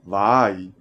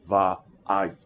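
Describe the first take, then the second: First: The vowels run together without a break. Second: A short glottal catch separates the vowels. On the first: The speaker calls it wrong. "Rather than va'ai" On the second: The speaker calls it right. "we say va'ai"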